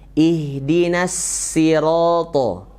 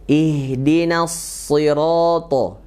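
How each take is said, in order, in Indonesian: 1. Bunyi s diucapkan tipis dan ringan. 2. Bunyi s diucapkan tebal dan berat. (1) "Yang salah ... so-nya ke bawah, ke bawah ke tipis nun" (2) "yang betul"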